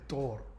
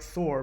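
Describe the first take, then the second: First: It begins with a sound close to T. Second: It begins with a soft th sound. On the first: "They they make it more like a T" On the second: "they write Thor"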